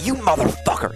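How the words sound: It is said in a genuinely angry tone. It is a real insult said in anger. "be mad at somebody and say"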